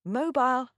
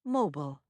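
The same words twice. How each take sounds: First: British MOBILE, rhyming its ending with "mile"; British accent. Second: American MOBILE with a reduced "bul" ending; American accent. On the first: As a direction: say MOBILE as a Brit, "MOH-bile". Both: Shown as a demonstration. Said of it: "Now you know how to say it".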